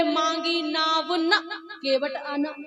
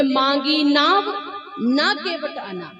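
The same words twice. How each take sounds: First: मांगी नाव न in one slow phrase, a break, then केवट आना; pause after न. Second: मांगी नाव rising, a break, then न केवट आना falling; pause after नाव. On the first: Preacher explaining the verse's second meaning, pause after न. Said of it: "दूसरा अर्थ ये है". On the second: Preacher explaining the verse's first meaning, pause after नाव. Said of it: "पहला अर्थ है". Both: Shown as a demonstration.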